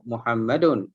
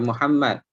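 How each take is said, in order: First: The word ends with a sounded vowel plus n. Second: The word stops at the final d sound. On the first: The word carries its full case ending. "Jadi kalau marfu' Muhammadun" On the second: The reader pauses at this word. "Kalau kita baca Muhammad tu kita wakaf"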